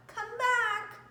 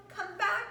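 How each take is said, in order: First: High, louder call falling on back; a final plea after the puppy. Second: High call with a rise on back. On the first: Family calling the puppy back, falling call. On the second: Family calling the puppy back, rising call. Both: Acted.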